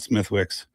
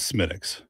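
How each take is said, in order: First: A 'th' and 'w' sound are heard. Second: No 'th' sound; it sounds like 'Smittix'. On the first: The speaker calls it wrong. "It's not Smithwick's" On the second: The speaker calls it right. "This is Smittix"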